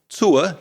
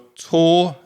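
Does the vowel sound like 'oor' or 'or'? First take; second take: oor; or. First: The vowel glides from oo to uh. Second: The vowel is a plain or sound. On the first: "let me say that sound in our example words" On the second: "I would say or"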